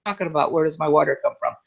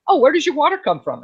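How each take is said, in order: First: Low, puzzled echo of the question; weirded out. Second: Higher-pitched imitation of a curious local; curious questioner. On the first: Retold or imitated. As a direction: repeat it lower, as if baffled by it. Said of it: "I kinda look at them weird". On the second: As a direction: ask it as an interested newcomer-greeter would. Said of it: "they talk to me and say".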